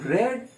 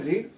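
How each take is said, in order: First: The vowel is a short e sound. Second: The vowel is a long ee sound. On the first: The action happened in the past. "ભૂતકાળનું રેડ" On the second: The action happens in the present. "વર્તમાનમાં રીડ"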